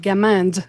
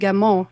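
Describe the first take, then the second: First: The name is pronounced with American English sounds. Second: The name is pronounced with French sounds. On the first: "the American way" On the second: "the French way to pronounce it"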